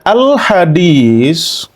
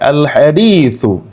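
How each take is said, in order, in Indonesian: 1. Ada bunyi Indonesia, diakhiri dengan s biasa. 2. Ada bunyi Arab yang cermat, diakhiri dengan th-u.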